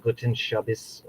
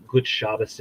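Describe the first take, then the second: First: "Guten Shabbos" with an extra -en syllable. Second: "Gut Shabbos" with no syllable between the words. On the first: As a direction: say "Guten Shabbos", GOO-ten SHAH-bis. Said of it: "it's more like". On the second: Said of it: "I think he says it's like". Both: Shown as a demonstration.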